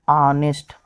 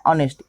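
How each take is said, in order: First: ऑनेस्ट said slowly as "aa-nest" with no h sound; silent h demo. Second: ऑनेस्ट said at normal speed as "aa-nest", h dropped; silent h demo. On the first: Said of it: "उसका उच्चारण क्या होगा". (ऑनेस्ट को धीरे से, बिना एच के, "ऑनेस्ट" बोलिए) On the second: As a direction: say ऑनेस्ट plainly, no h at the start. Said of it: "इसका उच्चारण क्या हो रहा है". (ऑनेस्ट बिना एच की आवाज़ के) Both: Shown as a demonstration.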